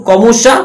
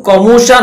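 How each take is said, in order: No difference in how they are said.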